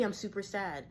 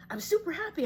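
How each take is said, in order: First: Understated mock gloom; mock super sad. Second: High, loud burst of happiness; hammed-up elation, pitched way up; super happy. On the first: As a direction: act sad without much weight. Acts out the opposite low wave. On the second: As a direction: act out riding a happy high. Acts out riding the high wave.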